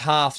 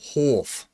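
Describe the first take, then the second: First: It is said with a plain open vowel. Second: It is said with a rounded 'or' vowel.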